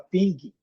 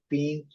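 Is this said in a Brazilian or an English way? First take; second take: Brazilian; English. First: It is pronounced the Brazilian Portuguese way. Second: It is pronounced the English way. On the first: The speaker calls it wrong. "A gente fala" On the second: The speaker calls it right. "o correto seria"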